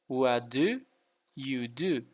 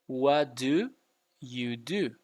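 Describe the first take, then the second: Both takes have the same delivery.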